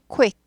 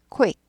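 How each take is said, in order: First: A short, quick 'oo' sound follows the k. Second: The same.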